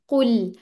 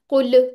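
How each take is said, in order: First: The final L sound is held a little. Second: The final L sound is cut off abruptly. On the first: The speaker calls it right. "तो इसकी आवाज थोड़ी सी चलानी है" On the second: The speaker calls it wrong. "अगर मैं फौरन उसके मखरज से जबान हटा लूंगी ना, कुल ऐसे हो जाएगा"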